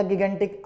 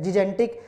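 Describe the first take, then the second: First: गिगेंटिक with both g's hard; hard-g alternative pronunciation. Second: जिजेंटिक with both g's as soft j; correct soft-g pronunciation. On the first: Teacher offers students the alternative, hard-g गिगेंटिक. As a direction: open गिगेंटिक with "gi-gen", g as in go. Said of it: "या गिगेंटिक". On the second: Teacher recalls the correct form for students, soft-g जिजेंटिक. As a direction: open जिजेंटिक with "ji-jen". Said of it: "सही pronunciation क्या है". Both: Shown as a demonstration.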